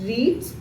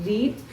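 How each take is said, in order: The two takes are said the same way.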